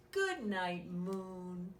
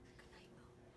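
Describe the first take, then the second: First: Said in the usual way. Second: A soft whispered good night. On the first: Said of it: "Good night, moon (whispered retake)". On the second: Acted. Saying good night to the moon in a whisper. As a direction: breathe it out in a whisper. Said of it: "whispered retake".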